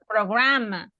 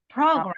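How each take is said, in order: First: The stress is on the second syllable. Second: The stress is on the first syllable. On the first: The speaker calls it wrong. "it's not program" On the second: The speaker calls it right. "the accent is on the first syllable"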